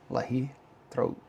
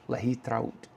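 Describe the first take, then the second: First: It is broken into two separate parts. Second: It is said smoothly as one word. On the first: The speaker calls it wrong. "She says I say that wrong" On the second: The speaker calls it right. "It's one word. ... I hope that was better"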